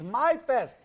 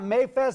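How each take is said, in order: First: The first syllable sounds like 'my'. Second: The first syllable sounds like 'may'. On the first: The speaker calls it right. "it's MyFest" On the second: The speaker calls it wrong. "it's not Mayfest"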